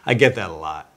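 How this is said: The line is said in a light, playful tone. The speaker is teasing and not taking it to heart. "So that's a way of saying it a little more playfully"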